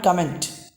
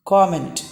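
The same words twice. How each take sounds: First: COMMENT as "cum-ent"; wrong comment. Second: COMMENT as "kom-ent"; correct comment. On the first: Teacher warns not this comment, "cum" vowel. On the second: Teacher repeats the right comment, round "kom". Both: Shown as a demonstration. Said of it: "Not comment".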